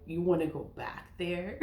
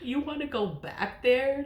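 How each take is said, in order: First: Chuckling as she asks; a half-laughing, incredulous question; laughing disbelief. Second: Higher and laughing through it; a burst of laughing disbelief; cracking up at the thought; laughing incredulously. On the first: Mocking the idea of returning. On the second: Repeats, laughing harder. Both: Real, not acted.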